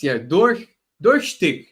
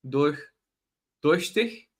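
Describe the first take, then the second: First: Durchstick said with an English stick ending; first try at German. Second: Durchstich said carefully, durch then stich, in a foreign accent; slow careful stab at Durchstich with a questioning rise; German attempt. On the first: A lecturer tries the German word durchstick and gets the ending wrong, slightly raised. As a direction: durchstick tried out loud, the ending anglicized as stick. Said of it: "I still mispronounced it".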